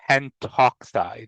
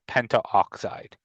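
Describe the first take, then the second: First: No vowel is heard before 'oxide'. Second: An 'a' vowel is heard before 'oxide'. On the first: The speaker calls it right. "we also still just say O" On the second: The speaker calls it wrong. "instead of"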